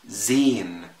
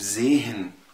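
First: The h is silent and the vowel is long. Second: The h sound is pronounced between the vowels. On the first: The speaker calls it right. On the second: The speaker calls it wrong.

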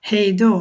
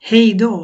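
Both takes have the same delivery.

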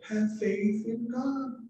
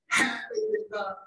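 First: It is said mildly, without strong emphasis. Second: It is said forcefully, with strong emphasis. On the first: The speaker calls it wrong. "he didn't say" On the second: The speaker calls it right. "it was emphatic because it's essential"

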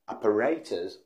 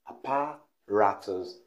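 First: The stress falls on the third syllable. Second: The stress falls on the second syllable. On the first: The speaker calls it right. "The right pronunciation is apparatus" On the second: The speaker calls it wrong. "They miss the stress by stressing it in the second syllable, apparatus, which is wrong"

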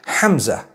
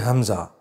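First: It begins with a throaty Arabic h sound. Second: It begins with a plain English h sound. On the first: The speaker calls it right. "Hamza is the proper pronunciation" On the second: The speaker calls it wrong. "people are going to say Hamza"

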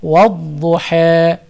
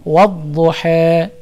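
No difference in how they are said.

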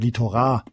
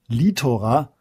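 First: The stress is on the third syllable. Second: The stress is on the first syllable. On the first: The speaker calls it wrong. "oder litora" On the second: The speaker calls it right. "das auf der ersten langen Silbe betont ist"

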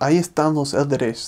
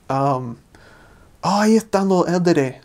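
First: The final S sounds are fully pronounced. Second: The final S sounds are aspirated or dropped. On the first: "instead of" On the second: "they kind of aspirate the S's on the end of words"

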